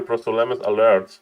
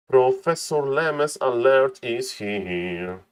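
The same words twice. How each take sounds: First: Said in the usual way. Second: Drawn-out announcer call. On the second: Acted. Caster welcoming Professor Lemes, slow drawn-out hype call. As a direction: stretch every word out very slowly. Caster hypes player's arrival.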